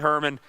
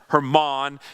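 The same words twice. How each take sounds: First: The name has an American English pronunciation. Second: The name has a Hebrew-style pronunciation. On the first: "I'm going to say Hermon because, well, I'm an American" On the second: "if you pronounce it the way you're supposed to"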